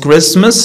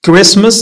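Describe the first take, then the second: First: "Christmas" as Crist-mas, T audible; T sounded. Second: "Christmas" as Crismas, no T; silent T. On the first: Teacher shows what not to say, T sounded in "Christmas". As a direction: say "Christmas" pronouncing the T. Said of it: "not Christmas". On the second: Teacher models common words, silent T in "Christmas". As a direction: say "Christmas" with the T dropped. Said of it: "T is not pronounced". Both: Shown as a demonstration.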